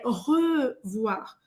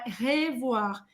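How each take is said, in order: First: The first vowel is said with rounded lips. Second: The first vowel is said with spread, unrounded lips. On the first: The speaker calls it right. "você vai fazer a boca do O e vai falar E" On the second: The speaker calls it wrong. "não é revoir"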